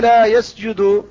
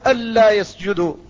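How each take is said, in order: First: The first word has a single l sound. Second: The first word has a doubled l sound. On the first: A call to a people to prostrate, as a command. "وقراءة الكسائي ألا يسجدوا ... معناه ألا يا قوم اسجدوا" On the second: They are not prostrating, with a present-tense verb. "فالجمهور قراءتهم ألا يسجدوا، فيسجدوا فعل مضارع وهو منصوب بأن الموصولة مع لا"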